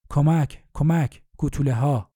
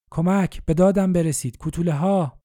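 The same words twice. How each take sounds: First: A frightened call for help, moderately raised; calling out as the dwarves swarm; cry for help. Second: Higher, louder desperate shout for rescue; screaming for help, at the end of his strength; desperate cry for help. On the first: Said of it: "مجدداً مستأصلانه فریاد زد". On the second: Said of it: "مستأصلانه فریاد زد". (فریاد مستأصلانه و بلند برای کمک) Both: A narrator's reading.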